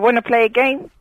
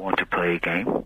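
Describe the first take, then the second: First: It is said in the caller's natural voice. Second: It is said in a spooky disguised voice.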